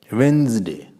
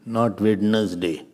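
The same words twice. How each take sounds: First: "Wednesday" as wenz-day; two clean syllables in "Wednesday"; right Wednesday. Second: "Wednesday" drawn out as wed-nes-day; slow, over-spelled "Wednesday"; wrong Wednesday, slowly. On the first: Teacher repeats the right "Wednesday". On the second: Teacher slowly mocks the wrong "Wednesday". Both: Shown as a demonstration.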